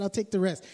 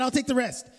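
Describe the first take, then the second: First: Said in the usual way. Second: Eager laugh. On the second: Retold or imitated. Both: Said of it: "I said".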